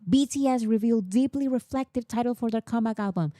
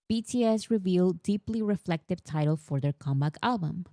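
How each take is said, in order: First: The headline is shouted loudly, like screaming. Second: The headline is read at a normal, calm volume.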